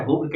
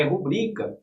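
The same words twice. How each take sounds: First: "rúbrica" with stress on the first syllable, RÚ; "rúbrica" misstressed as RÚ-brica; wrong stress, RÚ-brica. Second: "rubrica" as ru-BRI-ca, middle syllable stressed. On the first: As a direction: hit RU in "rúbrica", the common error. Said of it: "não é rúbrica". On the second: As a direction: put the weight on BRI in "rubrica". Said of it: "é rubrica". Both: Shown as a demonstration.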